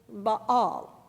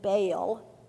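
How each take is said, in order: First: The name is said with its Hebrew pronunciation. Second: The name is said with the common anglicized pronunciation. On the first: The speaker calls it right. "The proper pronunciation in Hebrew" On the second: The speaker calls it wrong. "almost everyone pronounces it"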